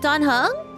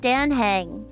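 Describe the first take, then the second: First: The first syllable does not sound like 'Dan'. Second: The first syllable sounds like 'Dan'. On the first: The speaker calls it wrong. "You think I'm pronouncing it wrong?" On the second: The speaker calls it right. "It's actually like Dan, like Dan T D M"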